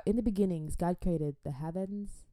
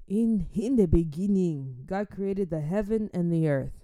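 First: Said in the usual way. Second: Reciting scripture. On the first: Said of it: "Um, so yeah". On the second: Shown as a demonstration. Quoting Genesis properly, in a solemn reciting voice. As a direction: intone it like a church reading. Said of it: "One and one".

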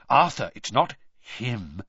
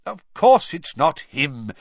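First: Slow, halting dread; fearful question. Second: Loud, slow, emphatic denial; impatient. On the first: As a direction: ask it slowly, afraid of the answer. Frightened bystander asks with dread. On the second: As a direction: dismiss the idea with exasperated stress. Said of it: "said Mister Weasley impatiently". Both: A narrator's reading.

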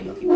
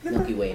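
First: Much higher and louder squeal. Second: Said in the usual way. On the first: Real, not acted. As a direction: squeal it out excitedly. Repeating a quiz answer.

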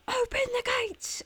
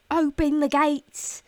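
First: Mock gatekeeper call. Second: Loud, high, drawn-out call; mock commanding shout. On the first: Gates person passing on the host's order, high-pitched mock call. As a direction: relay the order in a high put-on voice. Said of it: "And they'll be like". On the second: Host playing at arriving home to her gates person, commanding shout. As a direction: holler it out like arriving at your castle. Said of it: "I could be like".

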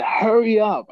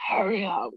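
First: Higher, louder hurried plea; urgent plea. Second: Higher and softer, breath running out; gasped plea. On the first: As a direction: beg him to move, short of breath. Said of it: "and I said". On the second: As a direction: plead weakly, choking on gas. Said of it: "I was like". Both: Retold or imitated.

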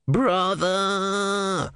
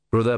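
First: A sudden high shout of a name; calling out. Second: Said in the usual way. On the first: Acted. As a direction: call his name sharply, high. A voice calls out to Brother. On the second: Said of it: "same word in narration".

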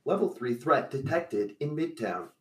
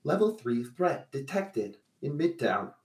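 First: Flat robotic alert voice, repeated. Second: Flat robotic alert voice. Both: Acted. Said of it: "robotic voice says".

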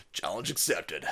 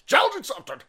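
First: Low, understated catchphrase; hushed mock-serious delivery; low and quiet. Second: High put-on catchphrase voice; mock-heroic squeal, pitched way up. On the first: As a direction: say it softly, well down in pitch. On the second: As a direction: shoot the pitch up into a silly voice. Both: Same catchphrase said two ways.

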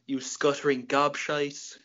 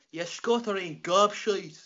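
First: Said in the usual way. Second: Higher, slow, exaggerated Irish brogue; weird Irish accent. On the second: Shown as a demonstration. Irishman showing how the insult must be said, weird Irish accent. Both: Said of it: "you got to say that one with a weird".

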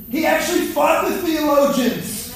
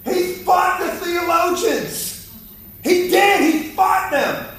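First: Preaching shout. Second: "fought" stressed, much higher and slow; emphatic repeat. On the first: Preacher to congregation on Jesus and theologians, raised shout. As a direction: shout "He actually fought the theologians" up at the crowd, "fought" hit hardest. Preacher driving home his point. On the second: Preacher repeating to congregation, slow high stress on "fought". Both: Acted.

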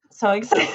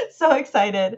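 First: Said in the usual way. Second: So excited it comes out through a laugh; laughing excitedly. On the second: Real, not acted. Podcaster gushing about the Snyder Cut, laughing. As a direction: gush it while laughing.

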